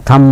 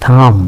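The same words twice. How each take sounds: First: থাম ending on M, "tham"; silent B. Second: থাম with the B sounded at the end, "thamb"; mispronounced থাম. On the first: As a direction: say থাম with no B after the M. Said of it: "বলি, বি এর উচ্চারণ হয় না". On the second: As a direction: add an audible B to the end of থাম. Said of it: "আমরা থাম বলি না". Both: Shown as a demonstration.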